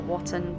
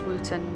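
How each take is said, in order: First: The first vowel sounds like 'o' in 'hot'. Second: The first vowel sounds like 'oo' in 'wood'. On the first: The speaker calls it wrong. "not Watton" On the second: The speaker calls it right. "it's actually pronounced as Wooton"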